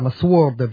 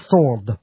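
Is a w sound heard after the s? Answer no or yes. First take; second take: yes; no. First: A w sound is heard after the s. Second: No w sound is heard after the s. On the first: The speaker calls it wrong. "nhiều người Việt Nam mình hay đọc là sword" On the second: The speaker calls it right. "đọc bỏ chữ w không đọc"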